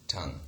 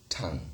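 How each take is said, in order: The two takes are said the same way.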